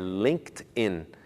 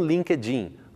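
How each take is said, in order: First: The ed sounds as a plain t. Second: The ed adds an extra vowel syllable. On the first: The speaker calls it right. "A pronúncia correta é LinkedIn" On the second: The speaker calls it wrong. "e não LinkedIn, como pronunciam por aqui"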